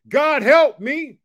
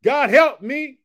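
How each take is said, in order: First: High, loud, very slow plea; slow call to repeat. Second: High, loud plea; call to repeat. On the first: Preacher leading viewers to repeat the prayer, slow and stretched. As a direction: stretch every word of the cry. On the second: Preacher asking viewers to say the prayer with him, high and loud. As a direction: cry it out to God at a normal pace. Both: Shown as a demonstration. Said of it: "Can you help me say that".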